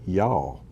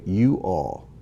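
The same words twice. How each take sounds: First: "y'all" run into one syllable; Georgia pronunciation. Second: "you all" as two separate words; Ohio pronunciation. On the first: Teacher showing how Georgians say it, "y'all" as one syllable. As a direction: squeeze it into a single word, "y'all". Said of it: "They don't say "you all," they say". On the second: Teacher showing how Ohioans say it, "you all" in two full words. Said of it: "Here in Ohio, we say". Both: Shown as a demonstration.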